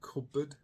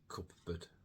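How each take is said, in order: First: The P is dropped; only the B is heard. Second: Both the P and the B are pronounced. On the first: The speaker calls it right. "It's much easier to say cupboard" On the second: The speaker calls it wrong. "than cupboard"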